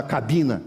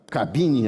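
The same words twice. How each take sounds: First: "cabina" ending in an open a; "cabina", rustic -na ending; rural pronunciation. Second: Said in the usual way. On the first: Shown as a demonstration. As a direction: say "cabina" the countryside way, final a instead of e. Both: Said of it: "a gente fala cabina na roça".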